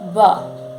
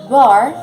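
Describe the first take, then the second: First: The R is said the British way. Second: The R is said the American way.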